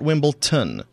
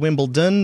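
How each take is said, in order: First: The middle consonant is not a D sound. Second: The middle consonant is a clear D sound. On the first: The speaker calls it wrong. "not Wimbledon" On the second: The speaker calls it right. "it is Wimbledon"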